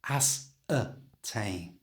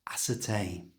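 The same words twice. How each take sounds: First: The word is said slowly and drawn out. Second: The word is said at normal conversational speed. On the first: "So slowly, this word now sounds like this" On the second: "And at a normal speed"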